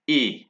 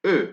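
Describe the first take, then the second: First: E as "ay", as in day; French E acute. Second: E as a French "uh" sound; French unaccented E. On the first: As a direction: say E like the vowel of "say". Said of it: "accent aigu". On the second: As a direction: say E as French schwa, lips rounded. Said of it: "with no accent, it's pronounced". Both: Shown as a demonstration.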